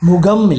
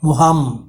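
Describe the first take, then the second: First: The middle consonant is a stop, not h. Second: The middle consonant is an h sound. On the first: The speaker calls it wrong. "முகம் இல்லை" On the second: The speaker calls it right. "இரண்டு உயிர் ஒலிகளுக்கு நடுவில் வரும்பொழுது ஹ என்று வரும்"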